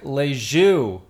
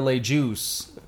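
First: The last word is said the French way. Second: The last word is said like English 'juice'.

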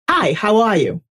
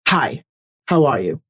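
First: The voice is pitched high. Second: The voice is pitched low. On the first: The speaker does not command confidence and respect. The speaker calls it wrong. "A higher octave" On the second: The speaker sounds confident. The speaker calls it right. "I drop my voice an octave"

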